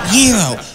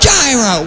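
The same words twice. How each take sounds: First: The word is pronounced the Greek way. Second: The word is pronounced the American way. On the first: This is how it is said in Greece. "maybe if I was in Greece with Socrates, I'd pronounce it gyro" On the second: This is how it is said in America. "here in America, ... we call it a gyro"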